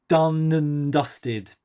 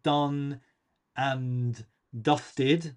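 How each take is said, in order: First: The word 'and' is unstressed and squashed together. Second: The word 'and' is said fully and separately.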